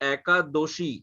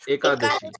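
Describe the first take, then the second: First: It is said with the Bengali pronunciation. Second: It is said with the Hindi pronunciation.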